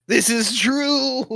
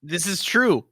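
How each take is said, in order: First: High, loud, drawn-out agreement; emphatic comic admission; exaggerated concession. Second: Said in the usual way. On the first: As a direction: stretch it out and push it up high. Repeats own concession, exaggerated.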